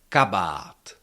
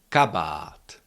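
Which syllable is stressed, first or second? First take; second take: first; first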